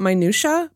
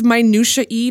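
First: The word ends with an 'uh' sound. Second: The word ends with an extra 'ee' sound. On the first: The speaker calls it wrong. "not minutia" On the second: The speaker calls it right. "it's minutia-y"

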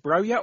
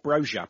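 First: The middle consonant is a 'y' sound. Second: The middle consonant is a 'j' sound. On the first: The speaker calls it right. "it's definitely Broya" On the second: The speaker calls it wrong. "everyone keeps on calling you Broja"

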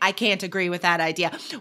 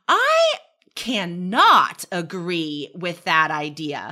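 First: The negative is contracted and unemphasized. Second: The negative is said in full and emphasized. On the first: "instead of saying" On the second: "we would start by emphasizing it without the contraction"

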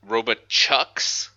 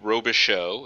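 First: The last syllable sounds like 'shucks'. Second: The last syllable sounds like 'show'. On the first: The speaker calls it wrong. "the most consistent bad pronunciation I get is Robichucks" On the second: The speaker calls it right. "Robichaux is what I say"

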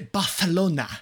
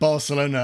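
First: It is said with an exaggerated Spanish accent. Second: It is said with a plain English accent. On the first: "they say Barcelona" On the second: "When they read Barcelona"

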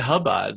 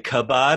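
First: The word begins with a soft h sound. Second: The word begins with a hard k sound. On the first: "you didn't say hubad" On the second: "you didn't say kabad"

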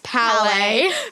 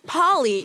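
First: The name ends with an 'ay' sound. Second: The name ends with an 'ee' sound. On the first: The speaker calls it right. "guys, it's Palais" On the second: The speaker calls it wrong. "We would be like, Polly"

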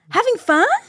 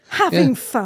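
First: It is said in a sincere, friendly tone. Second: It is said in a sarcastic, mocking tone. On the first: The speaker genuinely asks about enjoyment. "They say it like this" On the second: The listener is not really enjoying themselves. "I'd say you sarky swine"

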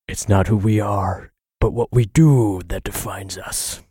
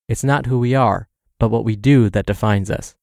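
First: It is said in a Bruce Wayne impression. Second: It is said in his normal voice.

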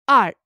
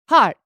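First: The word starts without an h sound. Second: The word starts with an h sound.

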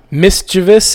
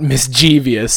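First: It is said with three syllables, no extra sound. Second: It is said with four syllables, adding an extra sound. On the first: The speaker calls it right. "There's no I after the V" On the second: The speaker calls it wrong. "is not"

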